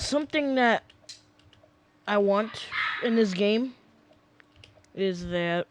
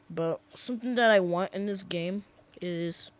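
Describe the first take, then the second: First: It is said in a Southern accent. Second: It is said in his normal accent.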